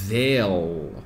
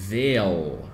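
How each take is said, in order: Both takes have the same delivery.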